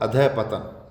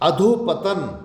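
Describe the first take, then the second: First: The first part ends in a breathy 'ah'. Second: The first part ends in an 'o' vowel. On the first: The speaker calls it right. "विसर्ग लगेगा ध के आगे" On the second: The speaker calls it wrong. "अधोपतन नहीं"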